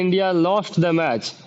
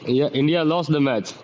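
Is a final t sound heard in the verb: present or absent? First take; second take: present; absent. First: The verb ends with a clear t sound. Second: The verb ends without any t sound. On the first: This is what the speaker intends to say. "इंडिया वो बोलना चाहते हैं" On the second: This is what the listener actually hears. "आदमी इतना ही सुनता है"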